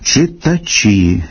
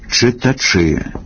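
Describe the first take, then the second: First: The ch before the last vowel is slightly softened. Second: The ch before the last vowel is extra hard. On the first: The speaker calls it right. "Дещо пом'якшуються шиплячі у позиції перед «і»" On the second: The speaker calls it wrong. "починають давати надтверду вимову, де треба і не треба"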